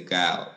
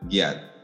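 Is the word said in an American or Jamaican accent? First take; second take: American; Jamaican. First: It is said with an American accent. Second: It is said with a Jamaican accent.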